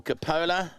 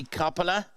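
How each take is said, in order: First: "Capola" as kuh-POH-la; middle-stressed "Capola", long o; speaker's own pronunciation. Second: "Coppola" as COP-uh-la; front-stressed "Coppola", short first vowel; alternative pronunciation. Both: Shown as a demonstration. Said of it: "as I call it".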